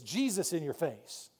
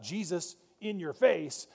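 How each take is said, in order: First: It is said without a pause after Jesus. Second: There is a pause after Jesus.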